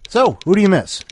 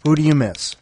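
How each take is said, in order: First: Higher and louder, game-show energy; hyped-up repeat. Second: Said in the usual way. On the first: Shown as a demonstration. Host repeats the question to listeners, higher and louder.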